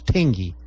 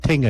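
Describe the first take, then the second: First: The name ends in an 'ee' vowel. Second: The name ends in an 'uh' vowel. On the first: The speaker calls it right. "it's Tingy" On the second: The speaker calls it wrong. "Tinga's not Tinga"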